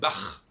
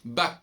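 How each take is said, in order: First: The name ends with a throaty rasping sound. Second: The name ends with a hard k sound. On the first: The speaker calls it right. "Normalement, c'est Bach" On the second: The speaker calls it wrong. "ce qui est une absurdité"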